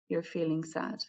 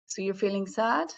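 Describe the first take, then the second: First: "sad" dropped at the end as a statement; falling inflection. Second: "sad" lifted at the end as a question; question intonation. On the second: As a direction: ask it, voice rising on "sad". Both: Shown as a demonstration. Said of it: "My inflection goes down".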